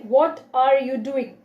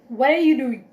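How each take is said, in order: First: The phrase is said slowly with full words. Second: The phrase is said quickly with words run together. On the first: "it seems like yes, we are speaking slowly" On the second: "it seems like we are speaking faster"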